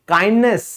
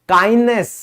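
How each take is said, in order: The two takes are said the same way.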